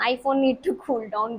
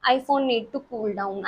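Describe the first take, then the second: First: Very slow, mock robotic echo of "iPhone need to cool down"; lightly imitated phone alert, repeated; phone's warning voice repeated. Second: Very slow, mock robotic phone alert; lightly imitated phone notification; phone's warning voice. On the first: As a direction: spell it out again like a stubborn machine. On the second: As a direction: drag out "iPhone need to cool down" like a machine. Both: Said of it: "फिर वो कहता है".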